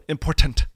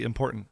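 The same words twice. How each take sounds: First: The T sound is clearly pronounced. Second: The T sound is dropped. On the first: This imitates how someone else says it. "I always think it's funny the way you say important" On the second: This is the speaker's own way of saying it. "I just cut the T"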